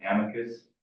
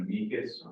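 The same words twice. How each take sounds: First: "amicus" as AM-ih-kus; alternative pronunciation. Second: "amicus" as uh-MEE-kus; alternative pronunciation. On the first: Staffer offers the other way to say it, "amicus" said AM-ih-kus. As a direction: stress the first syllable of "amicus", AM-ih-kus. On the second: Staffer explains the brief to the board, "amicus" said uh-MEE-kus. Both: Shown as a demonstration. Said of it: "however you want to say it".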